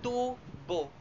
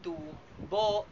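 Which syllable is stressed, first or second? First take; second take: first; second. First: The stress is on the first syllable. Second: The stress is on the second syllable. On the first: It means a water pipe. "nilalapatan ng diin sa unang pantig" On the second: It means profit. "nilalapatan ng diin sa ikalawang pantig"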